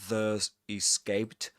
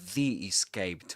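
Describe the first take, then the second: First: 'The' is said with a short schwa, 'thuh'. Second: 'The' is said with a long vowel, 'thee'. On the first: The speaker calls it wrong. "not The Escaped" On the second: The speaker calls it right. "pronounced as the right before vowel sounds"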